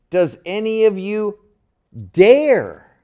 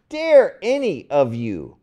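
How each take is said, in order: First: "dare" punched loud and high at the end; stress on dare. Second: "dare" moved to the front and hit hard, falling; stress on dare. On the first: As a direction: lean hard on the word "dare", letting it fall. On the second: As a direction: open the line with a loud, falling "dare". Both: Shown as a demonstration. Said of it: "an emphasis on that verb to dare".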